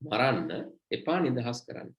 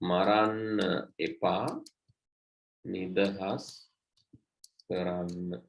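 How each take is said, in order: First: The pause comes after maranna. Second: The pause comes after epa.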